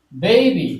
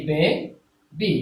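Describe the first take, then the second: First: Said in the usual way. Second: baby drawn out very slowly into two separate beats; counting out baby syllable by syllable. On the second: Shown as a demonstration. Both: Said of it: "তাহলে এক, দুই".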